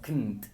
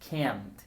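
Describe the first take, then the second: First: The word is fast with a reduced vowel. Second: The word is slow with a full vowel. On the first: "hablando rápido suenan como kn o como knt" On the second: "cuando hablamos lento para dar énfasis"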